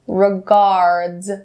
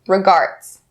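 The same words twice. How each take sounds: First: The final d is clearly voiced as d. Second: The final d is voiced like a t. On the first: The speaker calls it right. "hear how I have the d sound clearly" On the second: The speaker calls it wrong. "do not change the d, d sound to a t. Don't say regards. Regards. Not correct"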